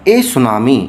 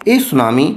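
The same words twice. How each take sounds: The two takes are said the same way.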